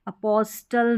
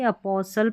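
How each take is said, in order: First: अपोस्टल with the T sounded; wrong pronunciation. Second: अपोसल with silent T; correct pronunciation. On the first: Teacher repeating what not to read, अपोस्टल with spoken T. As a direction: say अपोस्टल with a clear t. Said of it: "अपोस्टल नहीं पढ़ेंगे". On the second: Teacher confirming the reading, अपोसल without T. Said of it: "अपोसल पढ़ेंगे". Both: Shown as a demonstration.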